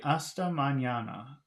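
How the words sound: English-style melody that goes up and down.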